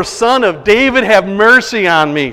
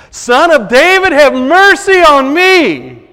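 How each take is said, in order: First: Loud plea with DAVID and mercy stretched; crying out. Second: Even louder, much higher, slow desperate plea; louder, higher desperate cry for mercy. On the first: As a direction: call out across a crowd for mercy. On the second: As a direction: shout it over the crowd, dragging out mercy. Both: Retold or imitated. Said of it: "cried out all the more".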